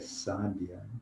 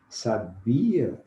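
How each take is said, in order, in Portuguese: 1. A sílaba tônica é a primeira. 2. A sílaba tônica é a do meio. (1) "uma mulher sábia" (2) "Sabia é um verbo"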